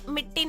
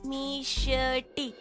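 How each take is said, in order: First: It is said with a hard 't' and no 'sh'. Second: It is said with an 'sh' before the 't'. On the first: The speaker calls it wrong. "मिट्टी नहीं" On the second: The speaker calls it right.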